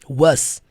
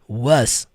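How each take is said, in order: First: The word ends with a buzzing z sound. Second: The word ends with a buzzing z sound.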